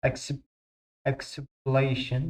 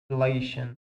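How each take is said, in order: First: "exhalation" said slowly, syllable by syllable; careful pronunciation. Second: Said in the usual way. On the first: Shown as a demonstration. Teacher to class, watch your pronunciation: slow "exhalation". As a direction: draw "exhalation" out slowly, each syllable clear. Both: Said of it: "انتبهوا على ال pronunciation مالتكم".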